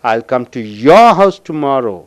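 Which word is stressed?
your. The word your is stressed. The speaker will visit only this person's house. "I will come only to your house tomorrow"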